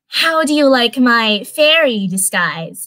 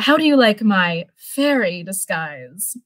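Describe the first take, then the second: First: It is said in a high-pitched voice. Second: It is said in a normal voice.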